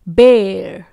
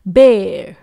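First: It is said in an American accent, with r. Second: It is said in an American accent, with r.

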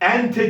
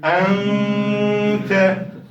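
First: The n sound is short, with no nasal hold. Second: The n sound is held as a long nasal. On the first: The speaker calls it wrong. "Ente demiyorum bakın" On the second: The speaker calls it right. "En tutacağım. Bir elif miktarı tut"

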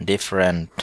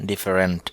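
No difference in how they are said.

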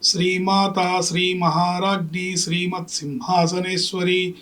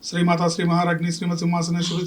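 First: It is recited slowly and unhurriedly. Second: It is recited quickly and hurriedly. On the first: The reciter dwells on the meaning of each name. The speaker calls it right. "హడావిడి లేకుండా అర్ధస్ఫురణతో" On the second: The reciter is rushing to finish many repetitions. The speaker calls it wrong. "నేను గబగబా పాఠాన్ని చదివినట్టుగా చదివి"

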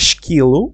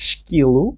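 The two takes are said the same way.

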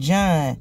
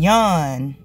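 First: The name begins with a J sound. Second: The name begins with a Y sound.

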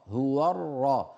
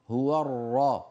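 No difference in how they are said.

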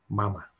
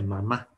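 First: The stress is on the first syllable. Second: The stress is on the last syllable. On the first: This is the English word. "Y en inglés no lleva acento, por eso se dice mama. Mama. Sin acento" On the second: This is the Spanish word. "En español, mamá lleva acento y entonces se dice mamá"

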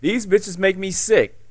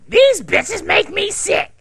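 First: It is read in the speaker's ordinary voice. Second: It is read in an exaggerated put-on character voice. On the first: The speaker calls it wrong. "Wait, no" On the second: The speaker calls it right. "let me do it in the voice"

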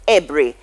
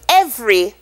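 First: The middle consonant is a b sound. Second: The middle consonant is a v sound.

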